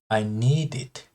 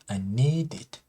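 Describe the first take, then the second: First: The D runs straight into 'it'. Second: The D runs straight into 'it'.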